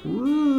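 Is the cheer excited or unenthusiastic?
unenthusiastic. It is a flat, unenthusiastic cheer.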